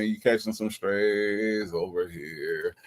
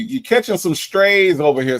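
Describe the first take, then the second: First: Soft, slow repeat of You catching some strays; quiet aside. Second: Higher, louder, playful catching; teasing exclaim. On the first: Streamer repeating the tease to Sonya, soft slow aside. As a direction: murmur it under the breath. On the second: Streamer teasing Sonya about the chat, loud playful tease. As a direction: tease her loudly. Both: Real, not acted.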